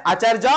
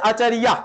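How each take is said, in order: First: আচার্য as "acharjo"; Bengali pronunciation. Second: আচার্যা as "achariya"; Sanskrit pronunciation. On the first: Teacher gives a Bengali example, Bengali pronunciation. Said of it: "বাংলায় হচ্ছে". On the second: Teacher contrasts the Sanskrit for pupils, Sanskrit pronunciation. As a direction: sound the য in আচার্যা as "iya", no "j". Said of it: "সংস্কৃত হচ্ছে". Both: Shown as a demonstration.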